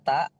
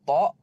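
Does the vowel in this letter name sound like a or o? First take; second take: a; o. First: The vowel sounds like an open a. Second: The vowel sounds like a dark o. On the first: The speaker calls it wrong. "bukan ta" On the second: The speaker calls it right. "Kemudian ada huruf to"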